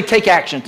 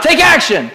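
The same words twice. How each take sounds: First: Said in the usual way. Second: Louder and higher, ringing out "Take action". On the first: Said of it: "look at somebody, say". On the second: Shown as a demonstration. Pastor urging the congregation to shout it, loud. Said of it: "Say it out loud".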